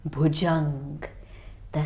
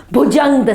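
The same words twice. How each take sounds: First: Bhujang said low and soft; low dark Bhujang; ominous hush. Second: Bhujang said louder, with a falling tune; firm loud Bhujang; dramatic reveal. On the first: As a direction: breathe the name Bhujang in a hush. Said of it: "Bhujang, the snake". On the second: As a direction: announce the name Bhujang. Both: Shown as a demonstration.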